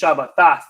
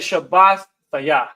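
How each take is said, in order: First: The root blends straight into the ending. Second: The root Shabbat stays whole before the ending. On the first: This is how others pronounce it. "they may pronounce this" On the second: The root word is kept recognizable. "but I say"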